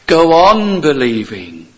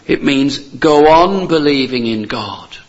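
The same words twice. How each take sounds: First: Louder, slow, "on" pressed hard; stress on on. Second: Slow and louder, punching on in "go on"; urgent, stress on on. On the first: Preacher repeating the call, louder with stress on on. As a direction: drive the word on home. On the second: Preacher urging the congregation, louder with stress on on. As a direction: press the word on home. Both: Shown as a demonstration.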